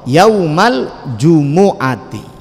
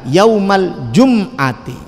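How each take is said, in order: First: The m is followed by an u vowel. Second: The m is followed directly by the next consonant. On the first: The speaker calls it right. "Yang betul napa?" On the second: The speaker calls it wrong. "Masih sering kita dengar"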